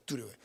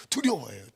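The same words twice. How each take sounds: First: 두려워해요 dropped to a soft falling murmur; the quiet take of 두려워해요; softer take. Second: 두려워해요 said out firmly at full voice; the firm take of 두려워해요; louder take. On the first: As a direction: let 두려워해요 fall away softly. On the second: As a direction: state 두려워해요 with a firm push. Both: Shown as a demonstration. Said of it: "repeated softer".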